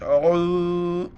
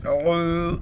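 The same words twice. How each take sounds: First: عو stretched four counts long; long madd. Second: عو stretched four counts long again; long madd. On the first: Teacher shows madd on عو, stretched long. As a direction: hold the و in عو for four beats. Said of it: "چار الف کی مقدار کھینچنا". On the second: Teacher repeats madd on عو, stretched long. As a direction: draw out عو slowly. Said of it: "پھر سنیے". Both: Shown as a demonstration.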